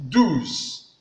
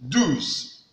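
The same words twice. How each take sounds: No difference in how they are said.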